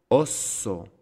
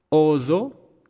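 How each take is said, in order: First: Osso with a short O and long hissed S; double S. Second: Oso with long first O and buzzed S, high and loud; single S. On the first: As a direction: hold the S in osso. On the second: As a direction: stretch the O in Oso, no stop. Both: Shown as a demonstration. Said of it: "¿Se dan cuenta que hay una pausa?".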